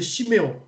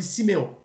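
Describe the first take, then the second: First: Chiméon with a "sh" sound, Hebrew style; Hebrew pronunciation. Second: Siméon with a plain "s", French style; French pronunciation. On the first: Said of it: "Mais en hébreu". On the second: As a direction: say Siméon as simeɔ̃, clean s at the start. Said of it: "en français, on dit Siméon". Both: Shown as a demonstration.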